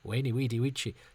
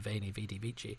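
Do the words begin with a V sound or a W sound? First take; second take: W sound; V sound. First: Each word begins with a W sound. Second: Each word begins with a V sound. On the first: The speaker calls it right. "It's like they didn't pronounce the V's" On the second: The speaker calls it wrong. "when people say veni, vidi, vici, I believe they are wrong"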